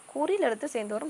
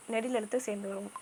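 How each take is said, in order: First: குறில் lifted in pitch and punched; stress on குறில். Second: Said in the usual way. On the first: Shown as a demonstration. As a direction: correct the rule by hitting the word குறில். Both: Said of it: "இதுதாங்க தப்பு".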